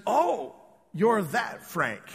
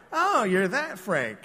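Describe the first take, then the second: First: Knowing remark. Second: Suspicious recognition. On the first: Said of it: "She said". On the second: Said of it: "you always gotta kinda wonder". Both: Retold or imitated.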